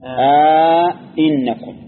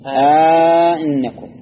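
First: A long vowel comes before a full second glottal stop. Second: A long vowel comes before a softened second glottal stop. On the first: "إدخال ألف بينهما ... هذا على التحقيق" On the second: "وعلى التسهيل أئنكم سهل"

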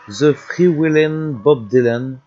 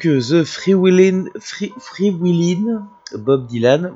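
First: It is said with an attempted English accent. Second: It is said with a strong French accent. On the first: "Je sais pas pourquoi j'ai pris cet accent" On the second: "on va le faire avec un accent français qui sent bon le camembert"

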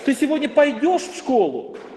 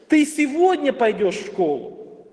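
First: The stress falls on the word пойдешь. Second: The stress falls on the word сегодня. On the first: The question is about whether or how one goes. "ты в принципе идешь или нет? Или ты пойдешь, или поедешь" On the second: The question is about when it happens. "Теперь мы переносим это ударение на второе слово"

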